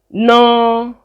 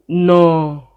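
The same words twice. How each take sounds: First: The word is said on a mid pitch. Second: The word is said on a low pitch.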